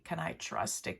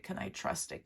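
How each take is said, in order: First: Said in the usual way. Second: Breathy, hushed self-question; whispered doubt. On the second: Acted. Voicing the client's secret doubt in a whisper. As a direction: whisper it to yourself, unsure.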